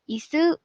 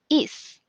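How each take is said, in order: First: An extra vowel is added after the final consonant. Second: The word ends cleanly on its final consonant. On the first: The speaker calls it wrong. "I understand why you pronounce it that way" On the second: The speaker calls it right. "American way we say is"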